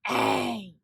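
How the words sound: The word is growled in a rough voice. "Growl it"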